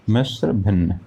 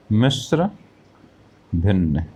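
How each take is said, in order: First: Said in the usual way. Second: Mishra rising, pause, then भिन्न falling; new term introduced. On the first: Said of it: "क्या है?". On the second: Shown as a demonstration. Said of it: "इसको हम एक शब्द और प्रयोग करते हैं".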